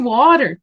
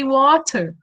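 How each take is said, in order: First: The t is a soft flapped sound. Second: The t is a strong clear sound. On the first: Young learners might not understand it. The speaker calls it wrong. "they might they might feel confused" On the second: Young learners understand it more easily. The speaker calls it right. "I say the the strong T"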